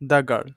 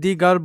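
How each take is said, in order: First: 'The' is said with a short 'uh' vowel. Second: 'The' is said with a long 'ee' vowel. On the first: The speaker calls it right. "উচ্চারণ হবে দ্য girl" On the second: The speaker calls it wrong. "আমি দি girl বলতে পারবো না"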